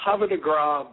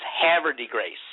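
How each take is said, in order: First: "Havre de Grace" said the French way, Grace as "grahs"; "Havre de Grace" as HAH-vuh duh GRAH; Frenchified Havre de Grace. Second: "Havre de Grace" drawn out as HAVER-dee-GRACE; slow, drawled "Havre de Grace", Grace rhyming with face; hillbilly pronunciation. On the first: Real, not acted. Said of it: "I need to correct you". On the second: Shown as a demonstration. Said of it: "talk like a hillbilly".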